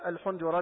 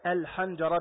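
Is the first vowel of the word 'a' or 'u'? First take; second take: u; a. First: The first vowel is u. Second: The first vowel is a. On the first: The speaker calls it wrong. "ما تقول الحنجرة بضم الحاء، خطأ" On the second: The speaker calls it right. "الحنجرة بفتح الحاء"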